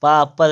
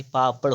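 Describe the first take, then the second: First: "पापड़" loud, ending in plain r; wrong final r. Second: "पापड़" ending in retroflex ṛ; correct final flap. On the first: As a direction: say "पापड़" as paapar, no flap. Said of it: "पापड़ नहीं". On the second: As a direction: curl the tongue on the end of "पापड़". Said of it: "पापड़ होता है". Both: Shown as a demonstration.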